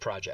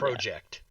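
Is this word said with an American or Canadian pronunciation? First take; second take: American; Canadian. First: It is said with an American-style pronunciation. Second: It is said with a Canadian-style pronunciation. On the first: "instead of project" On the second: "you pronounce it project"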